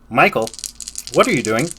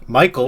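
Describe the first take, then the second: First: It is said in an imitated character voice. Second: It is said in the speaker's ordinary voice.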